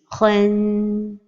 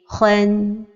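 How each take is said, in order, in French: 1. Le son final n est tenu longtemps. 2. Le son final n est court et bref. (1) "Une autre erreur est de donner beaucoup de temps à at-tanwin comme ceci" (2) "Donc la prononciation correcte est"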